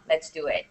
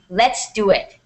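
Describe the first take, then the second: First: It is said flatly with little energy. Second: It is said with raised pitch and energy. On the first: The speaker calls it wrong. "there's no excitement in that sentence" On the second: The speaker calls it right. "Did you guys hear the raise the raise pitch in my voice for the second part?"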